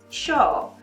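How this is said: It is said with an Argentine-Uruguayan pronunciation. "especially from Argentina and Uruguay, who say it like differently. They say like"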